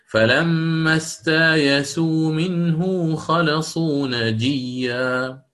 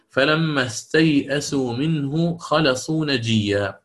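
First: Very slow recitation with استايسوا said as a long a, then ya; Bazzi reading. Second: Slow recited reading of فلما استيئسوا منه, with the hamza before the ya; Quran recitation. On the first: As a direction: draw out استايسوا with alif in place of the hamza. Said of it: "ثم أبدل الهمزة ألفا". (تلاوة بطيئة جدا: استايسوا بالألف بدل الهمزة) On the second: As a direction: chant استيئسوا slowly with the hamza first, as Hafs reads it. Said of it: "الأولى". (تلاوة بطيئة: استيئسوا بالهمزة قبل الياء) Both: Shown as a demonstration.

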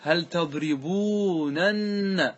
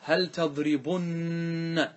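First: تضربونن very slow, long "uu" then "nanna"; uncontracted original form. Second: تضربن very slow, short "u" and long humming "nna"; contracted emphatic form. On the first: Teacher showing the original form, very drawn out. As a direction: sound every nun in تضربونن, "tadribuunanna". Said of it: "أصله إيش؟". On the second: Teacher giving class the final form, nun drawn out. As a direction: hold the doubled n of تضربن for a long beat. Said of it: "فماذا نقول؟". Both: Shown as a demonstration.

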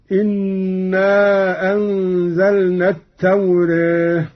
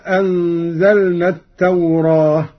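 First: التوراة ending in a fronted "-reh"; taqlil. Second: Said in the usual way. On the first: Shown as a demonstration. Teacher showing Qalun's recitation, taqlil on التوراة, "at-tawreh". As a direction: recite التوراة with the long a leaning to e. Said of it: "والتقليل هكذا". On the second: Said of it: "قرأ قالون بالفتح والتقليل".

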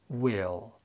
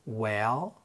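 First: "will" with a distinct ih vowel; clear short i. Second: "Well" with an open eh and a rising end; light short e. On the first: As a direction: say "will" with the i of "sit". (will بكسرة ظاهرة) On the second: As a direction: say "Well" with the e of "bed". (Well بكسرة خفيفة) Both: Shown as a demonstration. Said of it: "وننطقهم بالترتيب".

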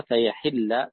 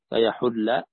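First: فيحل said fa-yahilla, ha with i; فيحل with a kasra on the ha. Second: فيحل said fa-yahulla, ha with u; فيحل with a damma on the ha. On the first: (فيحل بكسر الحاء) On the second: (فيحل بضم الحاء) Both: Shown as a demonstration. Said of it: "بكسر الحاء وضمها".

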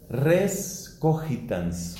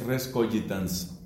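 First: "cogitans" with g as a Spanish jota, ko-HEE-tans; Spanish-style g. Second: "cogitans" with a soft g, ko-JEE-tans; usual Latin pronunciation. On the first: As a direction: say "res cogitans" slowly, harsh h-like g in "cogitans". Spells it, then gives Latin pronunciation. ("cogitans" con la g como jota española) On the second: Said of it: "en la pronunciación usual del latín es". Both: Shown as a demonstration.

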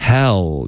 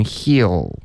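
First: "Hell" with an open "eh"; open-mouthed vowel. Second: "heal" with a narrow "ee" in place of "eh"; wrong "ee" vowel. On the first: Teacher models the right vowel, open "Hell". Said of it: "你的嘴巴要张开". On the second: Teacher shows what not to say, "ee" in "heal". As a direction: keep the mouth narrow on "heal". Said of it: "所以不能heal". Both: Shown as a demonstration.

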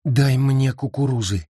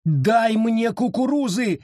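First: Said in the usual way. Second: Much higher, slower, pleading shout; desperate high shout. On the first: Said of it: "Нет, этого мало!". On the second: A narrator's reading. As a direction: cry out with all your heart. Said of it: "закричала она".

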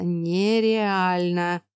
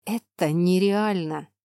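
First: Very slow hiss through teeth. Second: Slow hiss through clenched teeth. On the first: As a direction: drag it out through clenched teeth. (медленное шипение сквозь зубы) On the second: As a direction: hiss it, jaw locked. (шипение сквозь зубы) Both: Acted. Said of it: "прошипел он сквозь зубы".

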